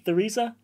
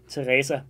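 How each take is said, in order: First: The name is said with an English pronunciation. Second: The name is said with a Danish pronunciation. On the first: "but you are Theresa. Th- Theresa, I think in English" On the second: "your name in Danish would be pronounced Teresa"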